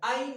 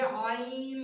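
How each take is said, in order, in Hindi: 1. यह सादे ग्लॉटल स्टॉप से शुरू होता है। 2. यह गहरी गले की आवाज़ से शुरू होता है। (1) "आइन नहीं। ... ऐसा लगता है जैसे हम हमजा को अदा कर रहे हैं" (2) "ये आइन लफ्ज है"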